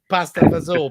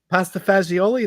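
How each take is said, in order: First: Clipped Italian-American form, final vowel dropped. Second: Every syllable is said, ending in a vowel. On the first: It is said the way New Jersey Italian-Americans say it. The speaker calls it right. "throw the spelling to the wind" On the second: It is said the way the spelling looks. The speaker calls it wrong. "That's that's what it looks like, that's how you say it, right?"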